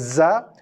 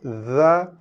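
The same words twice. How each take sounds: First: It starts with a buzzing z sound. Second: It starts with a soft th sound. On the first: The speaker calls it wrong. "Bukannya Za" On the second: The speaker calls it right. "tapi Za"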